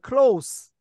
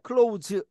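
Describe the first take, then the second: First: The word ends with a voiceless s sound. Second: The word ends with a voiced z sound. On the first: It means near or intimate. "발음이 달랐습니다" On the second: It means to shut something. "close the door 이런 때 쓰이는 거"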